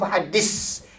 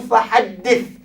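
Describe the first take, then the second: First: The final consonant is a hissing s sound. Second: The final consonant is a soft th sound. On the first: The speaker calls it wrong. "Jangan fahaddis. Kalau fahaddis dia ada huruf apa? Sin" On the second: The speaker calls it right. "hendaklah lidah di tekankan di antara gigi atas bawah"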